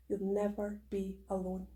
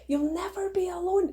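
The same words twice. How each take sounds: First: Soft reassurance. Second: Higher and brighter, leaning on alone; emphatic reassurance. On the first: Promising her community they're never alone, soft and gentle. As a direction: say it gently, almost to yourself. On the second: Repeating her promise to listeners, higher and emphatic. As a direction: lift it up and land hard on alone. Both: Shown as a demonstration.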